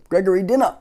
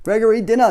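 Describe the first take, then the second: First: Mother calling up, mildly raised; mild shout. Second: Father calling up the stairs, a little louder. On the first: Mother calls her son to dinner, mild mock shout. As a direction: call him down again, a bit insistent. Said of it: "his mother shouted". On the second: Father calls his son down to dinner, calling out. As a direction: call him down to dinner. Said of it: "his father called". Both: A narrator's reading.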